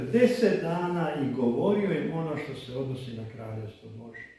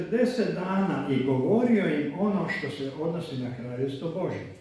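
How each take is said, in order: The two takes are said the same way.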